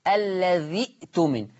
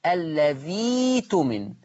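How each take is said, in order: First: الذي اؤتمن with a crisp glottal stop after "dhi"; slow الذي اؤتمن, hamza fully sounded; Hafs reading. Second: الذي تمن with a long "ii" and no glottal stop; very slow الذي تمن, hamza melted into the vowel. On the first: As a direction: cut الذي short on the hamza, then اؤتمن: "alladhi'-tumin". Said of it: "لو أنا بنطقها الحفص". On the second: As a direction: draw out الذي, then glide into تمن: "alladhiii-tumin". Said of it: "الياء، فتقرأ". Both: Shown as a demonstration.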